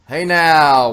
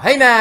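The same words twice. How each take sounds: First: It is said flatly, with little energy. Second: It is said loudly, with lots of energy.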